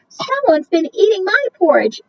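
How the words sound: It is said in a tiny, small voice.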